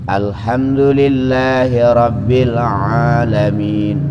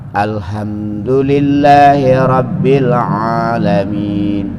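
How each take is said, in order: Both takes have the same delivery.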